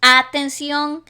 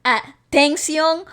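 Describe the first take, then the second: First: Atención said slowly with the stress moved off its usual syllable; stress shift demo. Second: Atención said slowly with a rising end and the stress on another syllable; second stress variant. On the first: Showing her friend how moving the stress changes atención, said slowly. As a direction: stretch atención out slowly, leaning on a different syllable. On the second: Demonstrating another stress placement in atención for her friend, slow rising delivery. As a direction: drag atención out and lift the end. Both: Shown as a demonstration. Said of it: "So you would say".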